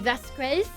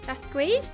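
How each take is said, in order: First: The name is said with a French accent. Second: The name is said with a French accent.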